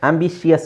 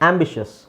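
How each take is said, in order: First: The ending is split into two syllables. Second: The ending is one syllable, shus. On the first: The speaker calls it wrong. "ಆಂಬಿಷಿಯಸ್ ಅಲ್ಲ" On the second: The speaker calls it right. "ಶಸ್"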